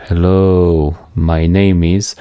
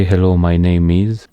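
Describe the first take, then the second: First: Hello, a pause, then slowly my name is; broken timing. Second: Said in the usual way. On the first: Shown as a demonstration. Demonstrating split subtitle timing to viewers, pausing after hello. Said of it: "But if I say". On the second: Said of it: "when I say".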